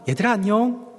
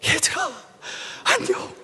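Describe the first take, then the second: First: The greeting is said in a plain, ordinary tone. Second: The greeting is said while sobbing.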